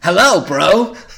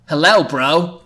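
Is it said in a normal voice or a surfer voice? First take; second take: surfer; normal. First: It is said in a laid-back surfer voice. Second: It is said in a plain, normal voice.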